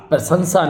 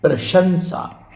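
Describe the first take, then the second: First: प्रशंसा with two s sounds, "prasansa"; mistaken s sound. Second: प्रशंसा slowly as "pra-shan-sa"; correct sh sound. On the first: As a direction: say प्रशंसा with s in place of sh. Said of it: "प्रशंसा नहीं". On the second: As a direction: stretch out प्रशंसा with a clear sh. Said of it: "सीटी वाला सा होगा". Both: Shown as a demonstration.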